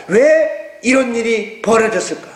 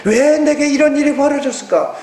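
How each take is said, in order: First: Slow, inward wondering; 천천히 스스로 묻듯이; musing question. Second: 이런 lifted higher and held; 이런을 높이 강조하며; stressed questioning. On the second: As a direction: press on 이런, pitch up. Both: Shown as a demonstration. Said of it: "땅의 것을 보지 말고".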